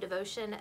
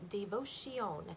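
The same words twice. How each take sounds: First: It is said with an English accent. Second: It is said with a French-sounding accent.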